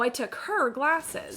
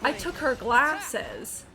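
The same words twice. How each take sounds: First: The emphasis falls on the word her. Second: The emphasis falls on the word glasses. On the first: The speaker calls it wrong. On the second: The speaker calls it right.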